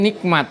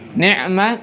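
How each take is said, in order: First: The consonant before m is a k sound. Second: The consonant before m is a throaty ain. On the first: "jadi kaf"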